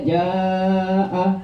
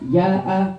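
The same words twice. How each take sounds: First: The vowel is stretched out long. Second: The vowel is cut short. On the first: The speaker calls it right. "Yang harusnya dibaca ja'a" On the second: The speaker calls it wrong. "kita bacanya ja'a"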